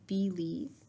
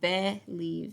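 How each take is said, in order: First: The first vowel is a long ee sound. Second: The first vowel is a short eh sound. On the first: The speaker calls it right. "it's saying believe" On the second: The speaker calls it wrong. "it's not saying believe"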